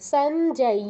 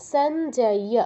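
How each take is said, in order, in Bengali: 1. শেষের 'y' ধ্বনিটি স্পষ্ট করে উচ্চারিত হয়। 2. শেষের 'y' ধ্বনিটি স্পষ্ট করে উচ্চারিত হয়।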